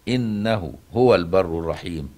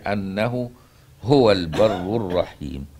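First: The first word begins with an 'i' vowel. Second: The first word begins with an 'a' vowel. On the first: It starts a new statement that affirms He is the Kind. "بكسر الهمزة على الاستئناف" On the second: It gives the reason: because He is the Kind, the Merciful. "بفتح الهمزة هكذا"

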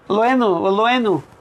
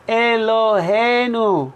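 First: The first syllable is dropped, leaving a clipped word. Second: Every syllable is said, giving the full word. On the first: The speaker calls it wrong. "What's Loenu?" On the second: The speaker calls it right. "It should say Elohenu"

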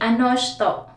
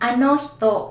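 First: The second word begins with an sh sound. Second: The second word begins with an h sound. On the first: "usually ano shito" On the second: "ano hito yung spelling"

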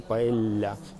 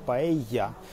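First: The double L sounds like an l. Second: The double L sounds like a y. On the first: The speaker calls it wrong. "а не paella" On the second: The speaker calls it right. "двойное L же на испанском читается как E. Например, paella"

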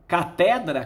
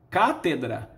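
First: The stress falls on the second syllable. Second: The stress falls on the first syllable. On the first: This is the common people's form. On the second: This is the educated classical form.

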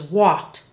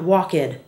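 First: The word is said as one syllable. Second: The word is said as two syllables. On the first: The speaker calls it right. "the past tense is walked" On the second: The speaker calls it wrong. "not walked"

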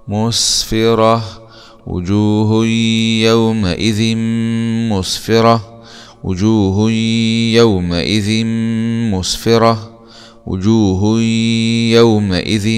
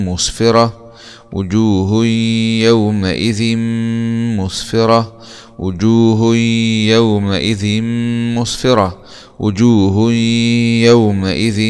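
The two takes are said the same way.

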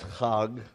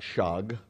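First: It begins with a rough throaty sound. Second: It begins with a soft sh sound. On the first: The speaker calls it right. "that's Chag" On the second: The speaker calls it wrong. "not Shag"

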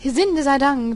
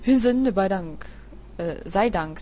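First: The voice is pitched unnaturally high. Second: The voice is pitched low and deep. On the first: The speaker calls it wrong. "dass ich meine Stimme immer so hoch stelle" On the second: The speaker calls it right. "die haben ja eine tiefe Stimme"

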